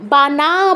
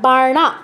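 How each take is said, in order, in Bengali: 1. এটা 'n'-এর আগে 'r' ছাড়া বলা হয়। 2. এটা 'n'-এর আগে 'r' দিয়ে বলা হয়। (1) "বানা বলা যাবে না"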